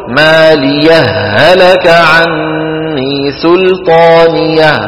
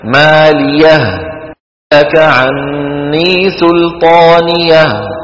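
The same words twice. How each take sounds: First: The two h sounds merge without a stop. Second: A brief stop separates the two h sounds. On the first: "ولك أن تدغم فتقول" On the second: "يصح للقارئ أن يسكت عليها من غير إدغام هكذا ... فيسكت قليلا"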